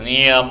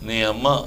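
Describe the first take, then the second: First: It is said in a harsh, insulting tone. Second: It is said in a plain, neutral tone. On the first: It is a curse. "అది booth అయిపోయింది" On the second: It is an ordinary reference to the listener's mother. "ఇది మామూలు"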